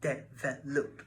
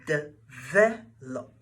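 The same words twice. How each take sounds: First: The stress is on the first syllable. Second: The stress is on the second syllable. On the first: The speaker calls it wrong. "not develop" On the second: The speaker calls it right. "is pronounced develop"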